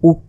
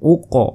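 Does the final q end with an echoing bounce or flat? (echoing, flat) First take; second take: flat; echoing. First: The final q stops flat, with no echo. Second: The final q bounces with an echoing release. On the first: The speaker calls it wrong. "উক না বলে" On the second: The speaker calls it right. "প্রতিধ্বনির মতো হবে অর্থাৎ দুইবারের মতো উচ্চারণ হবে"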